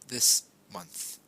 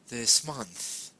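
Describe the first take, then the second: First: The two words are said separately. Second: The s sound joins onto the next word. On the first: "This month is two different words" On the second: "It flows"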